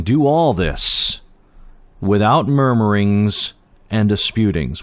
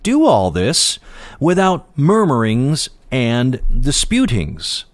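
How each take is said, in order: First: Slow, deliberate reading of the verse; slow scripture reading. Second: Higher, stressed reading with DO lifted; emphatic scripture quote. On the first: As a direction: read each word out slowly, weighing it. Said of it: "verse fourteen". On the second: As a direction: press the verse home, leaning on "Do". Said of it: "And Paul's saying". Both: Shown as a demonstration.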